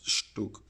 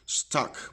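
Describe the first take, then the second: First: It does not sound like English stuck. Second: It sounds like the English word stuck. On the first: The speaker calls it right. "It's Stuk" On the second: The speaker calls it wrong. "especially British people, uh, tend to say stuck, but it's not stuck"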